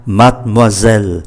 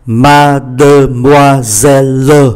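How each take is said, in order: First: "Mademoiselle" as mad-moi-zel, both e's silent; three syllables. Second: Slow "mademoiselle", every e sounded as its own syllable; five syllables. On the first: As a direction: drop the middle and last e in "Mademoiselle". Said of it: "còn lại ba". ("Mademoiselle" đọc gọn ba âm tiết, e câm) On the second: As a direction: spell out "mademoiselle" as ma-de-moi-sel-le. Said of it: "Như vậy có tất cả là năm syllab". ("mademoiselle" đọc chậm, tách năm âm tiết) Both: Shown as a demonstration.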